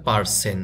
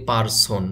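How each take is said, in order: First: পার্সন as par-SEN; পার্সন ending in -sen, not -son; correct pronunciation. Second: পারসন as par-SON; Bengali-style পারসন ending in -son; everyday local pronunciation. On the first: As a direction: say পার্সন with e in the last syllable. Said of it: "এটার সঠিক উচ্চারণ হবে". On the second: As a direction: say পারসন with a round o at the end. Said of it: "আমরা বলি". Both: Shown as a demonstration.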